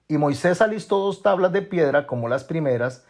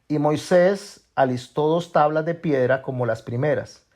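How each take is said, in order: First: It is read at a normal, quicker pace. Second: It is read at a slower, deliberate pace.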